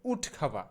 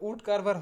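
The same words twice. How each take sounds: First: উড খাভা with aspirated kh and no r; corrected pronunciation. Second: Said in the usual way. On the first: Shown as a demonstration. Teacher correcting woodcarver, উড খাভা ending in open "va". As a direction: say উড খাভা as "wood KHA-va". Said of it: "সঠিক উচ্চারণটা হবে". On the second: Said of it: "উড কারভার হবে না".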